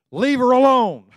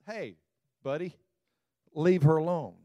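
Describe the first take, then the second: First: "Leave her alone" barked loud and high; Jesus defending Mary, forceful loud command; stern rebuke. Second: Said in the usual way. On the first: Acted. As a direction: shut him down hard.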